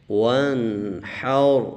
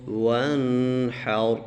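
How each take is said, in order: The two takes are said the same way.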